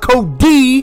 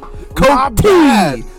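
First: The middle consonant is a soft D sound. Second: The middle consonant is a clear T sound. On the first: The speaker calls it wrong. "not Cody" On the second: The speaker calls it right. "Cody with the T"

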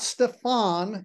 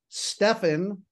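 First: The stress is on the second syllable. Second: The stress is on the first syllable. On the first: The speaker calls it wrong. "Everybody thinks the accent should be on the second syllable" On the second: The speaker calls it right. "So the name is Stefan"

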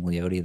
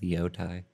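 First: The name ends with a 'tay' sound. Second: The name ends with a 'tie' sound. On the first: This is the artist's own preferred form. "it's more comfortable just saying Leote" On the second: This is how someone else says the name. "the guy from KOSU always pronounces it Leotai"

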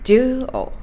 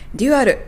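First: It is said with English vowels and syllables. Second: It is said as Japanese katakana syllables. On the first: The speaker calls it right. "Dual というふうに言います。" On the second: The speaker calls it wrong. "多分通じないと思います。"

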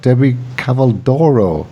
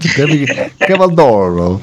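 First: The name has only a weak Italian accent. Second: The name has a strong Italian accent. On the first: The speaker calls it wrong. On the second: The speaker calls it right.

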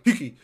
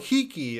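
First: The word is said very fast. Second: The word is said at a slower pace.

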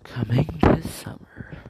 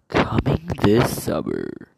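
First: It sounds like a soft romantic movie trailer. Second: It sounds like a dramatic action movie trailer.

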